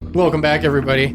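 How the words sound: It is said in a voice unlike the character's.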